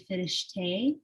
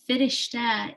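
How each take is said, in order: First: It is said the way Iranian speakers say it. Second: It is said the way Dari speakers say it. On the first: "in Iran as well, they would say Firishte" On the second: "Firishta in Dari"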